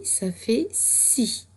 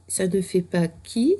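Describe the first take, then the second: First: Si dit lentement, bien sifflé; son si. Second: Qui, avec le son K dur. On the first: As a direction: insister lentement sur si. (si articulé lentement) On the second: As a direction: opposer le son K au son S. (qui prononcé avec K) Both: Shown as a demonstration.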